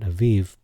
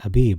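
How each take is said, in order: First: The middle consonant is a V sound. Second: The middle consonant is a B sound. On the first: The speaker calls it wrong. "not Aviv" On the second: The speaker calls it right. "the letter bet, is pronounced B"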